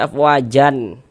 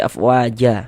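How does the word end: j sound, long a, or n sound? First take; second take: n sound; long a. First: The word ends with an added n sound. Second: The word ends on a lengthened a vowel. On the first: The speaker calls it wrong. "Jangan dibaca afwajan" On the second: The speaker calls it right. "tapi kita baca afwaja"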